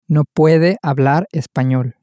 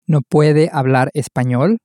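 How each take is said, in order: First: The voice falls at the end. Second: The voice rises at the end.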